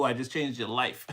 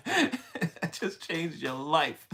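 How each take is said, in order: First: Said in the usual way. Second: Slow, laughing through the words; laughing repeat. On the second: Real, not acted. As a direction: giggle your way through the line. Repeats the line while laughing.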